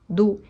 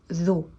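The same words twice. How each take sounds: First: The first consonant is made with the tongue in. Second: The first consonant is made with the tongue out. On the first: The speaker calls it wrong. "es incorrecta" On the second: The speaker calls it right. "sacando un pelín la lengua. Esta es la manera correcta de decirlo"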